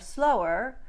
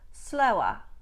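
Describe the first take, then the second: First: It ends in an unstressed er syllable. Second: It ends in a stressed ah sound, no R.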